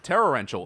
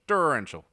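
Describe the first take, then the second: First: It is said in his own non-American accent. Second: It is said in an American accent.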